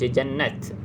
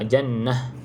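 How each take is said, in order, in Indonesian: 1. Kata itu berakhir dengan bunyi t. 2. Kata itu berakhir dengan bunyi h. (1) "tak boleh baca jannat" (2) "Kalau ta bulat bacanya uh, ha, jannah"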